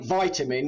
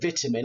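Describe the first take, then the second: First: It is said with an American pronunciation. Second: It is said with a British pronunciation. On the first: This is the pronunciation the speaker dislikes. The speaker calls it wrong. "I hate vitamin" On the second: This is how the speaker's own people say it. The speaker calls it right. "We call it vitamin"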